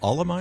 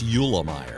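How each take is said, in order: First: The name begins with an 'Al' sound. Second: The name begins with a 'Yule' sound. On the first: The speaker calls it wrong. "what'd you call him? Allemeyer?" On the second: The speaker calls it right. "It's Eulemeyer"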